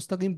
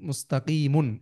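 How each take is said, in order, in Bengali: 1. শব্দটির শেষে কোনো অতিরিক্ত 'un' ধ্বনি নেই। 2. শব্দটির শেষে একটি অতিরিক্ত 'un' ধ্বনি আছে। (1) "নামাজে আমরা ইহদিনাস সিরাতাল মুস্তাকিম পড়ি, সেটা হচ্ছে কোরআন পড়ার নিয়ম" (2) "কিন্তু আরবি বলার যে নিয়ম... এভাবে বলতে হবে"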